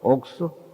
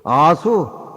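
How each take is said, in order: First: The first syllable is said as 'ok'. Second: The first syllable is said as 'a'. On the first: The speaker calls it right. "아를 발음을 옥으로 발음을 해" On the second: The speaker calls it wrong. "그럼 못 써"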